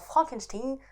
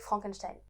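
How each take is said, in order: First: The name is said with an altered pronunciation. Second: The name is said with its usual pronunciation. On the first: It hides the link to the famous family. "il a changé l'intonation en Frankenstein" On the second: It is the famous family name. "pour qu'on ne puisse pas faire le lien avec Frankenstein"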